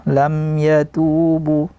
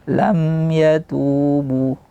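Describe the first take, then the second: The two takes are said the same way.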